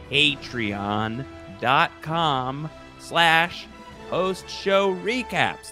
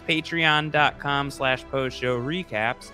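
First: It is said slowly. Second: It is said at normal speed.

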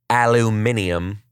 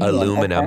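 First: It is said the British way, five syllables. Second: It is said the American way, four syllables.

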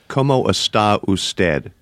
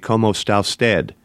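First: Each syllable of está usted is said separately. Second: Está usted merges into one word, losing a syllable. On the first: This is how a learner would say it. The speaker calls it wrong. "Native speakers of Spanish don't say it that way" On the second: This is how native speakers say it. The speaker calls it right. "they make essentially one word out of está usted"

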